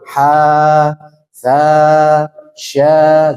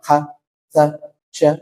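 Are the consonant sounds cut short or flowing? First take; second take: flowing; cut short. First: The consonant sounds flow on with breath. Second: The consonant sounds are cut off abruptly. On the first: The speaker calls it right. "jadi hamas itu dia mengalir" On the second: The speaker calls it wrong. "Jadi jangan ... ini namanya bukan rokhawah"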